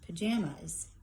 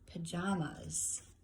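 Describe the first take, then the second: First: Its middle vowel does not rhyme with mamas. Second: Its middle vowel rhymes with mamas. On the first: The speaker calls it wrong. "This is how I originally read it" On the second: The speaker calls it right. "So I was supposed to say"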